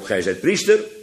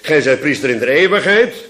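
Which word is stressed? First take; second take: priester; eeuwigheid. First: The stress is on "priester". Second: The stress is on "eeuwigheid".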